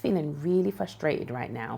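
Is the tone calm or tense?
calm. The voice is calm and at a normal level. The feeling is normal and nothing to worry about. The speaker calls it right. "in a very calm and normal voice level"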